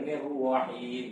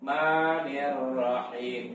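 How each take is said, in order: First: The r is made with rounded lips. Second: The r is made without rounding the lips. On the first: The speaker calls it wrong. "kalau nirwah nah, nanti pakai bibir salah" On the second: The speaker calls it right. "tanpa bibir"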